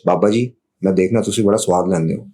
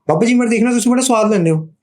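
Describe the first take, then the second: First: It is spoken at a normal pitch. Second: It is spoken at a high pitch.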